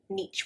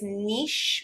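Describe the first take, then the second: First: The word ends with a ch sound. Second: The word ends with an sh sound. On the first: The speaker calls it wrong. "niche with a ch sound. It's not" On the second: The speaker calls it right. "It is niche with a sh at the end"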